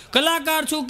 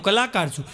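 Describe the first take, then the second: First: Raised repeat. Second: Said in the usual way. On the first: Retold or imitated. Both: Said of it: "કલાકાર છું" કીધું".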